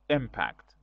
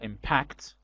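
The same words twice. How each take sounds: First: The stress is on the first syllable. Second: The stress is on the second syllable. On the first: It is the noun. "with a stress on first syllable" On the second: It is the verb. "stress is on second syllable"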